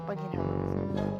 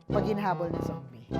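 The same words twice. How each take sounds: The two takes are said the same way.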